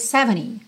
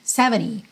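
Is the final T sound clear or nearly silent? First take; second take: nearly silent; nearly silent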